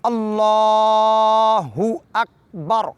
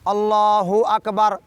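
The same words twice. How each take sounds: First: The k in akbar is light, without a vowel. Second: The k in akbar gets an extra vowel. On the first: The speaker calls it right. "मैं पढ़ के सुनाता हूँ।" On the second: The speaker calls it wrong. "ऐसे आम तौर पर लोग इस गलती को अंजाम देते हैं"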